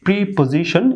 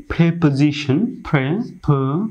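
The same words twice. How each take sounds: First: প্রিপোজিশন with "pree" at the start; long "ee" in the first syllable; wrong pronunciation. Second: প্রিপোজিশন opened with "pre" as in "prep"; short "e" instead of "pree"; corrected pronunciation. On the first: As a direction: mistaken "pree-po-zi-shon". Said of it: "এটি ভুল উচ্চারণ". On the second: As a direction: model "prep-uh-ZI-shn", then its pieces. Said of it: "সঠিক উচ্চারণটি করব". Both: Shown as a demonstration.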